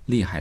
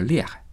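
First: It is said in standard Mandarin. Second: It is said with a Northeastern (Dongbei) accent.

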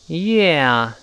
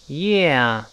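Both takes have the same delivery.

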